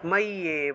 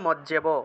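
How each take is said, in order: First: The middle consonant is a doubled y sound. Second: The middle consonant is a doubled j sound. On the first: This is how it is read in Sanskrit. "কিন্তু সংস্কৃত উচ্চারণ করলে" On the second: This is how it is read in Bengali. "বাংলায় বললে"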